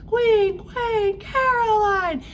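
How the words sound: The phrase is shouted loudly. It is announced to everyone. "they shouted it to the kingdom"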